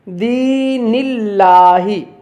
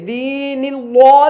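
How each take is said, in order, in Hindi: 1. "L" की आवाज़ बारीक और पतली है। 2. "L" की आवाज़ मोटी और भरी हुई है। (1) "इसे बारीक करके पढ़ेंगे" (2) "इसे हम मोटा नहीं करेंगे, दीनिल्लाह नहीं पढ़ेंगे"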